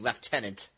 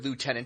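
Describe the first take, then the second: First: It is said with a British pronunciation. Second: It is said with an American pronunciation.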